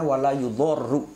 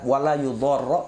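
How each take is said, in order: First: The last word ends with a u vowel. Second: The last word ends with an a vowel. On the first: The verb is read in the rafa case. "ada yang membaca dengan rafa" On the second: The verb is read in the nasab case. "Ada yang membaca nasab"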